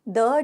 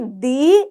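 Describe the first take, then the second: First: The vowel is short and reduced, like 'thuh'. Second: The vowel is long and full, like 'thee'. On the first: The next word starts with a consonant sound. "द का उच्चारण कब करोगे, जब अगला consonant होगा" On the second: The next word starts with a vowel sound. "द को दी कब उच्चारण करोगे... जब अगला ही शब्द जो होगा वो वोवल साउंड होगा"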